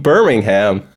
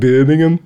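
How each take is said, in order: First: It is said in an American accent. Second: It is said in a Birmingham accent.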